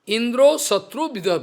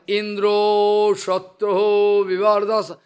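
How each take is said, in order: First: The phrase is said quickly. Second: The phrase is said slowly.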